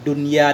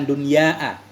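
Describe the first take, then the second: First: The final vowel is short, with no glottal stop. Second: The final vowel is long, ending in a glottal stop. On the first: The speaker calls it right. "Wabil qasri ... enggak pakai hamzah, dunya doang" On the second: The speaker calls it wrong. "bukan dunyaa"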